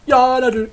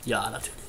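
First: "Ja, natürlich" louder and higher, mocking; annoyed ironic "of course"; sarcastic. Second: Said in the usual way. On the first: Real, not acted. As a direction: snap it back full of sarcasm.

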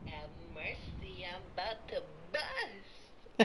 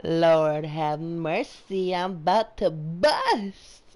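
First: Much softer, laughing through the line; quiet retry. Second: Slow try at Zay's delivery. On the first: Player retrying friend's catchphrase, much softer and laughing. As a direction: mumble it, giving up. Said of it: "I can't do it". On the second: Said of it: "I'm gonna try it again". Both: Shown as a demonstration.

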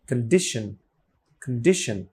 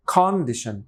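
First: "কন্ডিশন" with a short schwa "kuhn", stress on DI; "কন্ডিশন" as kuhn-DISH-un, barely aspirated k; weak first syllable. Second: "কন্ডিশন" with a full, open "kon" first syllable; "কন্ডিশন" with an unreduced first vowel; spelling pronunciation. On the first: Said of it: "তাহলে হবে". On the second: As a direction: say "কন্ডিশন" as spelt, clear KON at the start. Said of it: "হিসাবে হওয়া উচিত". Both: Shown as a demonstration.

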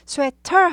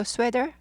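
First: First sweater with a hard, fully sounded t; over-pronounced t. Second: Second sweater with the t softened to d. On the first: Teacher shows learners what to avoid, hard t. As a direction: say sweater as sweh-TAR with a crisp T. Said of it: "sweater 하지 마시고". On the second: Teacher shows learners the target, soft-d pronunciation. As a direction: say sweater as SWEH-der, light on the middle consonant. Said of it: "sweater 정도로 하세요". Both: Shown as a demonstration.

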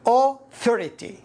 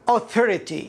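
First: "authority" broken slowly after a rounded "aw"; AU sounded apart. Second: Said in the usual way. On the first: Shown as a demonstration. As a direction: say "authority" as aw... thority. (نطق "authority" ببطء مع فصل "أو") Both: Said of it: "إذن أو".

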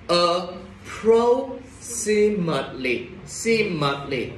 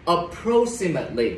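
First: "Approximately" broken into slow, drawn-out syllables with pauses. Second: Said in the usual way. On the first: Shown as a demonstration. Teacher breaking down a hard word for the class, "Approximately" syllable by syllable. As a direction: sound out "Approximately" very slowly, piece by piece, then repeat "Simately". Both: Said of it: "từ này khá là khó đọc".

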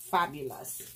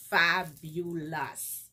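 First: Said in the usual way. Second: "fabulous" stretched out syllable by syllable; emphatic praise. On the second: Real, not acted. Vlogger praising a gift, "fabulous" slowly drawn out. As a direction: draw "fabulous" out slowly, each syllable separate.

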